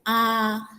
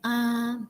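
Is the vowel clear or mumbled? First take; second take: clear; mumbled. First: The vowel is open and clearly articulated. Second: The vowel is mumbled with little mouth opening. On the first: The speaker calls it right. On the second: The speaker calls it wrong. "jangan diem gini"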